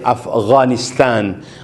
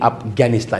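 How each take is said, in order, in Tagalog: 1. Ang gh ay magaspang na tunog mula sa lalamunan. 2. Ang gh ay simpleng matigas na tunog ng g. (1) "Ganon siya pronounce" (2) "Hindi hindi Afghanistan"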